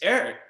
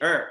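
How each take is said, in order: First: The name is said fully, every syllable pronounced. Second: The name is cut short, its ending dropped. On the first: The speaker makes sure outsiders understand. The speaker calls it right. "It's Eric" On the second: The speaker talks the way they grew up talking. The speaker calls it wrong. "I'm not finishing my words"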